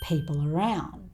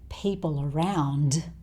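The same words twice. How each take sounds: First: The final d sound is left off. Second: The final d sound is pronounced. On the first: "he also doesn't really say the d sound in around" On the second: "So he doesn't say people around"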